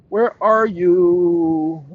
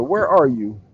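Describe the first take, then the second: First: Drawn-out, held 'you' as if searching; calling out. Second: Said in the usual way. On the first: Pretend. Streamer hunting for a missing file, calling out. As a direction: call for it very slowly, stretching the last word.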